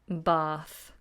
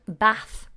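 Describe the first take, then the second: First: The vowel is a long ah sound. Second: The vowel is a short ah sound. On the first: This is the Southern Standard British way. "if we're learning Southern Standard British English, it should be bath" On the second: This is how northern English or American speakers say it. "many people mispronounce this and give me a short ah sound"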